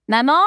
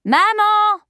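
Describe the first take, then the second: First: First call to mother, rising high. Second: Very high, loud call to mother; insistent call. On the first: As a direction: call toward the next room, voice lifting. Daughter first calls toward the kitchen. (appel vers la cuisine, voix montante) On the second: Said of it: "Appela-t-elle de nouveau". (appel insistant, fort et très aigu) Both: A narrator's reading.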